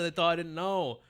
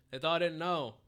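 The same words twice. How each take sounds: First: Said in the usual way. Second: Mock crying. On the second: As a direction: fake whiny sob. Repeats line as mock sob.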